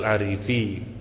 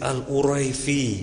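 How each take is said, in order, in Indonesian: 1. Nama itu diucapkan dengan bunyi a: Arifi. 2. Nama itu diucapkan dengan bunyi u-rai: Uraifi. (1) "orang bacanya Al-Arifi" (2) "itu dibaca mesti Al-Uraifi"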